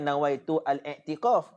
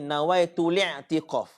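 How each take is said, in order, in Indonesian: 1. Artikel diawali hamzah, terpisah. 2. Kata-katanya menyambung tanpa hamzah. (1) "hak betulnya bukan nawaitu al-i'tikaf" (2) "Cara betul bacanya nawaitu li'tikaf"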